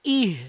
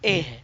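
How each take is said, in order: First: The vowel is a close 'e' sound. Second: The vowel is an open 'eh' sound. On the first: The speaker calls it right. "it will become e to e" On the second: The speaker calls it wrong. "not eh"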